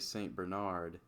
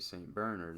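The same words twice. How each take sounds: First: The name is said with an American pronunciation. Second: The name is said with a French pronunciation. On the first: The speaker calls it wrong. "I think that's the American pronunciation" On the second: The speaker calls it right. "in the French, uh, the French people, they say Saint Bernard"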